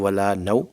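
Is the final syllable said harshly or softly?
harshly. The final syllable is cut off harshly. The speaker calls it wrong. "ये सख्ती की ना"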